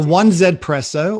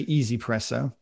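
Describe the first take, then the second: First: The name starts with the words 'one zed'. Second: The name starts with the word 'easy'. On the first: The speaker calls it wrong. "I like to call it 1Z because that obviously annoys a lot of people" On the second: The speaker calls it right. "as you're supposed to say"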